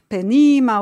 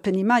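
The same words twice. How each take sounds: First: The stress falls before the final syllable. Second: The stress falls on the final syllable. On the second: This is the modern Hebrew accentuation.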